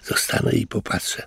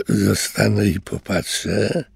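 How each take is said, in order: First: Hushed, half-whispered musing to himself; curious thought. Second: Slow, scornful echo with a rising question; mocking echo. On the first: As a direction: think it quietly, full of curiosity. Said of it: "pomyślał zaciekawiony Louis". (ciche, ciekawskie rozmyślanie) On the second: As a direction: throw his own words back at him mockingly. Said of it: "tajemniczy głos". (drwiące powtórzenie, wolno, z pytającą intonacją) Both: A narrator's reading.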